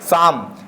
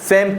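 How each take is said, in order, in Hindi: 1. स्वर 'ah' की तरह बोला जाता है। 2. स्वर 'ay' की तरह बोला जाता है। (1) "ना कि साम" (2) "सेम पढ़ेंगे"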